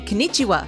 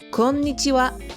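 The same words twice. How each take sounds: First: The stress falls on the second syllable. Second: The stress falls on the first syllable. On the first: The speaker calls it wrong. "Usually foreigners put the emphasis on the second syllable" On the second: The speaker calls it right. "The correct pronunciation puts the stress on the first part. The N is also a long sound"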